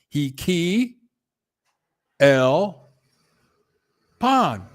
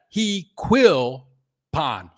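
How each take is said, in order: First: The middle is split into 'key' and 'L'. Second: The middle is said as one syllable, 'quill'. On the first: The speaker calls it right. "he breaks up the Q U and the I L" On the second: The speaker calls it wrong. "I got it"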